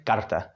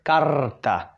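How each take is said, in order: First: Said in the usual way. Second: Karta with a long rolled R; longer R. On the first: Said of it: "you just say karta". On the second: Shown as a demonstration. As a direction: drag out the trill in karta. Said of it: "or longer".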